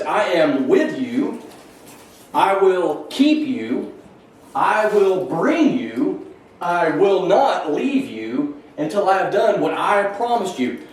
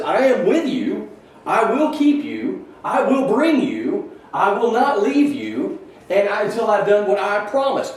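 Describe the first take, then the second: First: Slow, weighty reading, a pause after each promise "I am with you", "I will keep you", "I will bring you"; emphasis on I. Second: Higher and slower, pressing on "I" in "I am with you", "I will keep you", "I will bring you"; emphatic repeat. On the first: Teacher reading God's promises to Jacob, slow and emphatic. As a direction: lean on every "I" and let each promise land slowly. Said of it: "emphasis mine".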